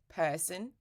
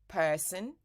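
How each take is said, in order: Both takes have the same delivery.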